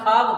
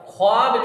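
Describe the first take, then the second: First: No w sound follows the kh. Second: A w sound follows the kh. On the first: This is how it is read. The speaker calls it right. "मगर खाब पढ़ा जाएगा" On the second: This follows the spelling. The speaker calls it wrong. "ख्वाब लिखा जाएगा"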